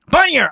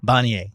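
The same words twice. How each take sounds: First: The name is yelled loudly. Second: The name is said at normal volume. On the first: "and then I yelled" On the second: "I said Bonnier"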